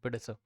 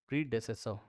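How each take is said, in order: First: A middle syllable is dropped, said quickly. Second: All four syllables of the word are said. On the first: "प्रीडेसर बोल देंगे जल्दी से" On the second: "इसको प्रीडेसेसर्स बोला जाता है"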